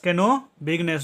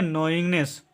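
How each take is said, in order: First: "केनो बिगनेस" with the silent k wrongly sounded; wrong pronunciation. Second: "नोइंगनेस" as one word, the k silent; correct pronunciation. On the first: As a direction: misread as two words, "केनो" then "बिगनेस". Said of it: "जो कि गलत है". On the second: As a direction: start "नोइंगनेस" on n, straight into ing-ness. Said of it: "इसको पढ़ेंगे". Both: Shown as a demonstration.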